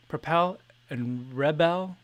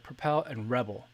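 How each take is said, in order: First: Propel and Rebel slow, each stressed on the second syllable. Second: Propel and Rebel quicker, Rebel stressed on the first syllable; Propel and Rebel as read. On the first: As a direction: say Propel and Rebel slowly, stressing the pel and bel. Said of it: "I feel like it should be". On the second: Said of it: "but, like". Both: Shown as a demonstration.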